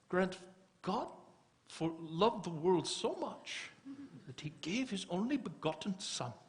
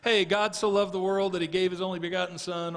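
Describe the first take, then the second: First: It is said in an imitated Kenyan accent. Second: It is said in the speaker's plain accent.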